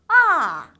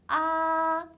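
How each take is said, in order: First: The pitch slides sharply down from high. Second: The pitch stays high and level. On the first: "떨어지는 음이에요. 쭉 미끄러져야 돼요" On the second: "높은 음에서 쭉 이어지는 음이에요"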